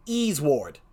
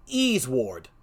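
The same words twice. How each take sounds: First: Second reversed read of the name; backwards speech. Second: Name said in reverse; slow, low reversed Pokemon name; backwards speech. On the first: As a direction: repeat the reversed name, steady. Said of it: "I'm gonna say it twice". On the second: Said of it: "I'm gonna say a Pokemon's name in reverse". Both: Shown as a demonstration.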